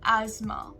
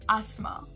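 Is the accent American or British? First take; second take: American; British. First: It is said in an American accent, with a z. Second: It is said in a British accent, without a z. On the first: "the American pronunciation, instead of the S, we'll say it as a Z" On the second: "coming to the British pronunciation"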